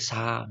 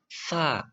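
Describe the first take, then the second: First: The consonant is a plain hissing s. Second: The consonant is a soft th sound. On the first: The speaker calls it wrong. "nggak boleh" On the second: The speaker calls it right. "lidahnya harus digigit"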